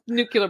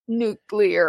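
First: The word is said as nucular. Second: The word is said as nuclear. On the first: The speaker calls it wrong. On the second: The speaker calls it right.

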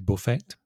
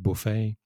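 First: The final t sound is pronounced. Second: The final t sound is silent. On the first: The speaker calls it wrong. "whereas in Spanish is perfectly, well, correct and acceptable. You say buffet" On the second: The speaker calls it right. "or in English, we'd say Monet, Manet, buffet"

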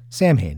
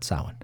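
First: The name is said in the band's own pronunciation. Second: The name is said in a different pronunciation. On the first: This is the pronunciation the band's founder chose. The speaker calls it right. "That's right. Samhain" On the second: This is not how the band says its name. The speaker calls it wrong. "not Samhain"

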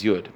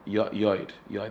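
First: The vowel is a plain 'oo' sound. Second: The vowel is a rounded 'oy' sound. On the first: This is the everyday pronunciation of the letter name. "we pronounce it as Yud" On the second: This is the technically correct pronunciation with a cholam. "technically speaking, it's a Chaylam, Yoid, that's really technically"

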